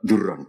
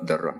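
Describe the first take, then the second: First: The first vowel is a rounded 'u' sound. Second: The first vowel is an open 'a' sound. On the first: "wa dhamia lan baidot" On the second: "bi fathidot"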